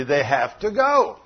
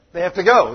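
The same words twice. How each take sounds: First: "have to go" drawn out slowly; slow down and weight each word of "have to go"; emphatic repeat. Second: Said in the usual way. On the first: Real, not acted. Preacher confirming young lady's answer, emphatic slow "have to go".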